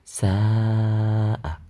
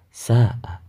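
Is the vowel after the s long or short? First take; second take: long; short. First: The vowel after the s is drawn out long. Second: The vowel after the s is short. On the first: The speaker calls it right. "harus dibaca panjang" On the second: The speaker calls it wrong. "Tidak boleh sa'a"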